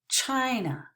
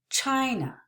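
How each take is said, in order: No difference in how they are said.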